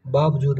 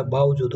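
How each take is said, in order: First: बावजूद with a b in the middle, baabjood; बावजूद with baab as first syllable; wrong pronunciation. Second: बावजूद with a v in the middle, baavjood; बावजूद with baav as first syllable; correct pronunciation. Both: Shown as a demonstration. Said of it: "बावजूद नहीं होता".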